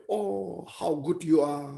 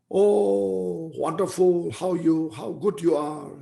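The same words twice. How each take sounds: First: Imitated echo. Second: Calling out a long, high "Oh"; mock shout. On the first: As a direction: play the mountain echoing the praise back. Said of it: "The echo will say". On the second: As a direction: pretend to shout praise at a mountain. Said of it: "you, you just shout".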